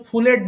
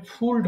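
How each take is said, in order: First: ফুলেড with an extra vowel before the final D, as two syllables; wrong ending. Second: ফুলড as one syllable with the D right after L; correct ending. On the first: Teacher shows the common mistake with the extra syllable. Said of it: "এটা কিন্তু ফুলেড না". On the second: Teacher gives the right form after the mistake, one clean syllable. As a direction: say ফুলড with no vowel before the D. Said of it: "এটা হবে ফুলড হবে". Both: Shown as a demonstration.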